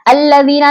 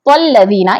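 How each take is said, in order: First: The word starts with its own separate glottal stop. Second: The word is joined to the preceding sound. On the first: The speaker calls it wrong. "नहीं पढ़ रहे" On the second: The speaker calls it right. "प से लाम को मिलाकर"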